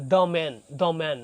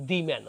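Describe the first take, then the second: First: The pronounced "duh" in "the man"; slow "duh man", open short vowel in the; "duh" before consonant. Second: The as "dee" in "the man"; wrong "dee". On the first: Teacher shows the article before a consonant, "the man" as "duh man". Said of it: "এই যে M আপনার কি consonant". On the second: Teacher shows the mistake to avoid, "the man" as "dee man". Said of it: "not the man". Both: Shown as a demonstration.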